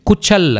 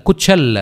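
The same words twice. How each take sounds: The two takes are said the same way.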